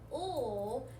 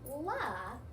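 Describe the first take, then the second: First: A continuous l sound with no vowel after it. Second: A short l sound followed by a vowel. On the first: The speaker calls it right. "when you make the L sound O" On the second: The speaker calls it wrong. "you're not saying la"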